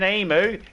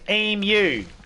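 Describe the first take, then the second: First: It is pronounced the American way. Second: It is pronounced the Australian way. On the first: The speaker calls it wrong. "it's not fucking emu" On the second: The speaker calls it right. "it's emu"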